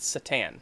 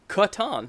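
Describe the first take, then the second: First: The word begins with an S sound. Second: The word begins with a K sound. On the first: The speaker calls it wrong. "I have always said Satan" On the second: The speaker calls it right. "It is actually Catan"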